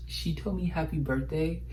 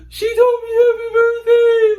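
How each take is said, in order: First: Said in the usual way. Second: Much higher and louder, squealing with joy; excited shriek. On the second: Retold or imitated. Teen fan screaming that Drea Michelle wished her happy birthday, excited shriek. Reliving idol's birthday wish.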